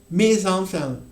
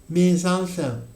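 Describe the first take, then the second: Both takes have the same delivery.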